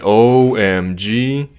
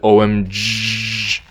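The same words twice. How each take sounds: First: The O vowel is drawn out long. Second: The O vowel is kept short. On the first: The speaker calls it right. "you would prolong O in O M G" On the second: The speaker calls it wrong. "rather than O M G. You wouldn't say that"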